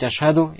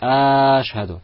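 First: The vowels are kept at normal short length. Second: A vowel is drawn out, held too long. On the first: The speaker calls it right. "вместо того, чтобы говорить" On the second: The speaker calls it wrong. "он тянет те буквы, которые тянуть не нужно"

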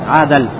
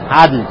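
First: An a vowel is heard between d and l. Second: No vowel is heard between d and l. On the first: The person deviates from what is right. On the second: The person is upright and just.

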